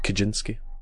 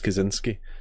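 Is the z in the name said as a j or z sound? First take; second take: j sound; z sound. First: The z is said as a j sound. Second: The z is said as a plain z sound. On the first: This is the Polish way of saying the name. "in Poland, you would call it Kaczynski because the Z is a J sound" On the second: This is the American way of saying the name. "I use the American spelling. I use Kaczynski"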